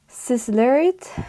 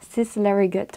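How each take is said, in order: First: The G is pronounced like a Y sound. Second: The G is pronounced as a hard G. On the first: The speaker calls it right. "apparently that's how you pronounce it ... the G sounds like a Y actually" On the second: The speaker calls it wrong. "was how I thought you pronounce this"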